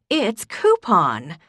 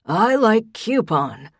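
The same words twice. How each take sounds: First: "coupon" said KOO-pon, slow and steely; slow insistent KOO-pon. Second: "coupon" said KYOO-pon, higher, louder and slow; stubborn old man, KYOO-pon; defiant kyoo-pon. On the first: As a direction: correct him firmly: "coupon" as KOO-pon. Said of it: "her voice laced with steel". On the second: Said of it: "Pop said defiantly". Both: A narrator's reading.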